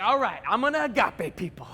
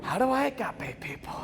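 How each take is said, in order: First: Eager announcement with swooping pitch; pumped up. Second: Softer, puzzled question; hushed doubt. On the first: Student setting out to love the school, pumped. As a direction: launch into it with gung-ho resolve. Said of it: "I was pumped". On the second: Pumped student suddenly unsure how to start, hushed doubt. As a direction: drop the bravado and wonder quietly. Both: Retold or imitated.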